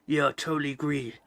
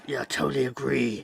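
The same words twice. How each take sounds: First: Grizzled war veteran. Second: Low gravelly dry calm; an eighties action-film soldier, deadpan; grizzled war veteran. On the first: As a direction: read it like a hardened old soldier. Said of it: "read it like she's a grizzled veteran". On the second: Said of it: "grizzled veteran in nineteen eighties war flick". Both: Shown as a demonstration.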